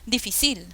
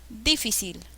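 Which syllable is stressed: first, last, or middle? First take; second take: last; first. First: The stress is on the last syllable. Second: The stress is on the first syllable. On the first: "No, tampoco es difícil" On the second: "no, no se pronuncia difícil"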